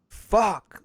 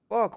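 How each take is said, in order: First: The word sounds angry and annoyed. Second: The word sounds puzzled and surprised. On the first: The speaker is annoyed. "like I'm pissed off" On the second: The speaker does not understand what happened. "why did that just happen?"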